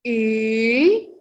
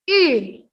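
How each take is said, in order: First: The pitch dips and curves back up. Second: The pitch drops sharply with pressure. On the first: "Kalau untuk nada ketiga" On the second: "Untuk nada terakhir"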